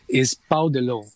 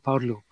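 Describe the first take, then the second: First: The phrase is said at normal pace and volume. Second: The phrase is said quickly and softly.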